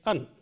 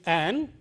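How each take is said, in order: First: The vowel is reduced to a short schwa. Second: The vowel is full, as in 'cat'. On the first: "but the weak form is an" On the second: "The strong form is an"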